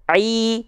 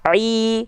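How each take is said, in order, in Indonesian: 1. Bunyi vokal 'i' terdengar cerah dan jelas. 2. Bunyi vokal 'i' terdengar cerah dan jelas.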